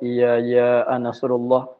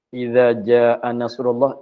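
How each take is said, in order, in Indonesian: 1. Kata ja'a dimulai dengan bunyi y. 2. Kata ja'a dimulai dengan bunyi j.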